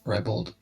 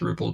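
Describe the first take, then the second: First: The vowels are full and clear. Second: The vowels are weak and reduced. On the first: It follows the spelling. "ribald is more the way it looks like it's spelled" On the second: It sounds more posh. "ribald sounds more posh"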